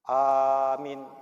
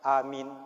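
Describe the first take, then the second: First: The first vowel is held long. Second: The first vowel is held short. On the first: It means belief. "A-nya panjang, min-nya pendek" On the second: It means believing. "A-nya pendek, min-nya pendek"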